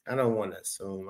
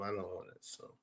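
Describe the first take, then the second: First: Quick, softer aside. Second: Nearly silent repeat under the breath; almost mouth it to yourself; barely audible. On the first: Streamer hedging to a viewer, quick soft aside. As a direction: say it fast and a bit under your breath. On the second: Streamer repeating to himself, almost silent mutter. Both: Real, not acted.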